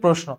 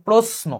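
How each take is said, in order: First: The consonant before n sounds like sh. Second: The consonant before n sounds like s. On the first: This is how people say it in everyday speech. The speaker calls it wrong. "আমরা মুখে বলি প্রশ্ন" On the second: This is the proper pronunciation. The speaker calls it right. "Actually উচ্চারণ হচ্ছে প্রশ্ন, এস এর মতো উচ্চারণ হবে"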